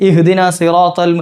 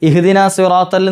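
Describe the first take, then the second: No difference in how they are said.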